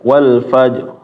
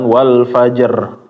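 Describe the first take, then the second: First: The final bounce on the r is only slight. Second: The final bounce on the r is strongly exaggerated. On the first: The speaker calls it right. "tapi sedikit aja ya Bapak" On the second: The speaker calls it wrong. "Ketika membacanya itu terlalu berlebihan"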